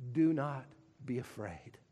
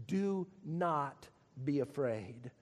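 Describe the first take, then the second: First: Soft, low, tender promise; gentle reassurance. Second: Low, slow, soft and tender; soft reassurance. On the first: God softly reassuring Paul in the night, tender and low. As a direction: hush it like comfort in the night. God's comforting words to Paul. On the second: God waking Paul at night, softly comforting. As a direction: breathe it out gently like a secret. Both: Acted.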